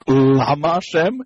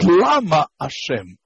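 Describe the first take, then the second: First: Lama Hashem with LA-ma; first-syllable stress. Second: Lama Hashem with la-MA; second-syllable stress. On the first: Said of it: "is not Lama Hashem". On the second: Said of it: "the emphasis in this second syllable". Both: Shown as a demonstration.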